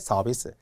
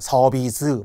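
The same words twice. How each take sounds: First: The first consonant is plain. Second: The first consonant is tense. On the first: The speaker calls it right. "자연스럽게" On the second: The speaker calls it wrong. "막 이렇게 불편하게"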